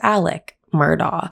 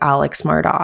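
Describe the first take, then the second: First: The first name ends with a 'k' sound. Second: The first name ends with a 'ks' sound. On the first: The speaker calls it right. "However, his name is Alec Murdaugh" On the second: The speaker calls it wrong. "you would think his name is Alex Murdaugh"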